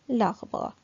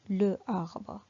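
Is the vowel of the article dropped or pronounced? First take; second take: dropped; pronounced. First: The article loses its vowel and joins the noun. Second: The article keeps its vowel before the noun. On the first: The speaker calls it right. "je fais la liaison et on dit" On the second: The speaker calls it wrong. "C'est faux, c'est pas joli à entendre"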